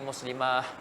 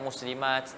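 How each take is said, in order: First: The word ends with an h sound. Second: The word ends with a t sound. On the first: "jadi muslimah dengan ha" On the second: "Asalnya muslimat"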